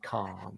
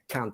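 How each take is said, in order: First: It is said in a modern RP accent. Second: It is said short, northern English style.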